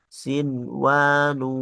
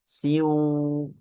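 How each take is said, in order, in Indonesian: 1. Bunyi n dilafalkan dengan jelas sebelum w. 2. Bunyi n menyatu dengan w yang mengikutinya. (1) "melainkan dijelaskan idhar" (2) "jangan dibaca siu, ya, jangan diidghamkan"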